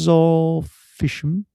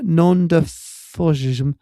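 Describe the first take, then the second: First: Sounded out syllable by syllable, Nandazorfism; carefully spelling out Nandazorfism slowly; slow careful sounding out. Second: Nondafosism sounded out slowly again; retry the word Nondafosism slowly; second careful try. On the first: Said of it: "Am I pronouncing it wrong?". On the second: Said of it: "I've pronounced it completely wrong". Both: Real, not acted.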